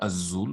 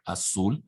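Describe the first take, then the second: First: The middle consonant is a buzzing z sound. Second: The middle consonant is a hissing s sound. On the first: The speaker calls it wrong. "it's not azul" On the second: The speaker calls it right. "but azul, like an S"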